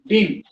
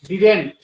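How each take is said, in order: First: It is shortened to one syllable, like din. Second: Both syllables are said, ending in a t. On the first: This is the newer, more casual way of saying it. "New में इसको बोलते हैं डीन" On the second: This is the older, standard way of saying it. "Old हो गया"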